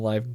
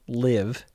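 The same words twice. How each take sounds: First: The vowel is long, rhyming with 'five'. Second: The vowel is short, rhyming with 'give'. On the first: The speaker calls it wrong. "Not Live" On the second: The speaker calls it right. "Organic living soda. So yeah, Live"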